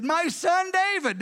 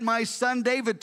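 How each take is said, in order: First: Higher and slow, said with affection; fond address. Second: Said in the usual way. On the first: Retold or imitated. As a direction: say it like a father moved to tenderness. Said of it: "he said". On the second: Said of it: "Now he's got that".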